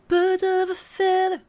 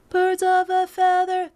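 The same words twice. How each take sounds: First: The F sounds are crisply and strongly articulated. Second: The phrase is flat, with plain F sounds. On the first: The speaker calls it right. "I'm really actually um, articulating those F's" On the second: The speaker calls it wrong. "That's very robotic and straight"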